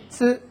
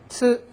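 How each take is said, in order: No difference in how they are said.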